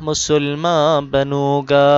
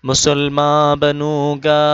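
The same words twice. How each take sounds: No difference in how they are said.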